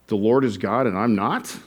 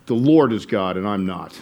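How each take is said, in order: First: Rising, questioning the word not in disbelief. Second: Disgust. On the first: Preacher showing the congregation how doubt sounds, in disbelief. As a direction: ask it as if you can't believe "and I'm not". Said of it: "the sentence could be said with disbelief". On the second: Preacher demonstrating Pharaoh's resentment, lightly disgusted. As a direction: spit out "The Lord is God" with mild contempt. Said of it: "Or you could say it with disgust". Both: Shown as a demonstration.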